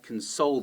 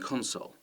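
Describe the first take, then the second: First: The stress is on the second syllable. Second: The stress is on the first syllable. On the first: It is a verb meaning to comfort. "the stress is on the second syllable" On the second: It is a noun meaning a game device. "the stress is at the beginning"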